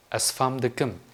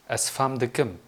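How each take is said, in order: Both takes have the same delivery.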